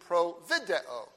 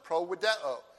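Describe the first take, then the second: First: It is said in an ecclesiastical Latin pronunciation. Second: It is said in a classical Latin pronunciation.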